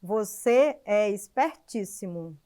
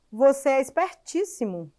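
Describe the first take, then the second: First: "você é espertíssimo" drawn out slow and low; slower, lower. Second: Said in the usual way. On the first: Shown as a demonstration. Teacher showing the class a second reading: slow and low. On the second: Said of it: "eu estou fazendo um elogio".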